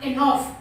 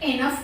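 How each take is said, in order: First: The second vowel is a long 'aw' sound. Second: The second vowel is a short 'uh' sound. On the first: "ज़्यादातर लोग एनॉफ use करते हैं" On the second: "बहुत लोग इसे एनफ कहते हैं, वो भी सही है"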